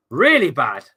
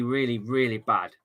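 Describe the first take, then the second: First: "really" punched much louder, falling onto "bad"; stress on really. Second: Said in the usual way. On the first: Shown as a demonstration. Fed-up streamer stressing how bad the camera is, hitting "really". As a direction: lean hard into "really" to drive the point home. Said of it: "We're talking". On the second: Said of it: "We're talking really bad".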